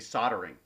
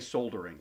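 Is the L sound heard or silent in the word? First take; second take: L silent; L heard. First: The L sound is left out entirely. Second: The L sound is clearly pronounced. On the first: This is how it is said in North America. "in North America, for some reason, they say soldering" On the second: This is how it is said in Britain. "like you you actually say the L that's there"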